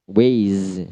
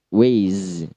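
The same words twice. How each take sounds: First: The word ends with a z sound. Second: The word ends with a z sound.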